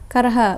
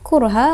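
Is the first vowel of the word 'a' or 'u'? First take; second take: a; u. First: The first vowel is an open 'a'. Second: The first vowel is a rounded 'u'. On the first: "bi fathiha" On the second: "bi dhammil kaf"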